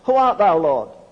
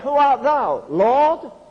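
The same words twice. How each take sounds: First: It is read flatly, without feeling. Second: It is read with deep, awed feeling.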